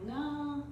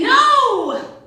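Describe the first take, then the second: First: The word is said in a soft, kind way. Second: The word is said in a harsh, curt way. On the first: The speaker calls it right. "it kind of sounds nicer" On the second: The speaker calls it wrong. "It sounds harsh"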